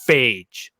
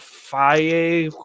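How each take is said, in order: First: The name is said as one syllable. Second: The name is said with two syllables. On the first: The speaker ignores the missing accent marks. "You know what I call it? Fucking phage" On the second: This is how the makers intend it. "is supposed to pronounce that"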